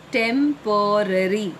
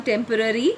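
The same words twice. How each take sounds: First: Temporary slowly split as tem-po-rary; three syllables. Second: Said in the usual way. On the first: Shown as a demonstration. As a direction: sound out Temporary in three held beats. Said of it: "is three syllables". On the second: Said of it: "how to pronounce them".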